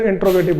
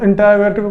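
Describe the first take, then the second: First: "इंट्रोगेटिव" with t and r run together; "इंट्रोगेटिव" in its shorter form, no vowel after t; variant pronunciation. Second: "इंटरोगेटिव" with a vowel between t and r; "इंटरोगेटिव" in its longer form, t and r separated; variant pronunciation. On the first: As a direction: say "इंट्रोगेटिव" as in-tro-ge-tiv. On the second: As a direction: say "इंटरोगेटिव" as in-te-ro-ge-tiv. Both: Shown as a demonstration. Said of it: "इंटरोगेटिव बोलो या फिर इंट्रोगेटिव बोलो".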